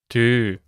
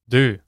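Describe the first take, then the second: First: It is said slowly. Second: It is said at normal speed.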